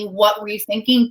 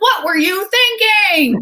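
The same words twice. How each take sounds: First: It sounds like a genuine, curious question. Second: It sounds scolding and accusing.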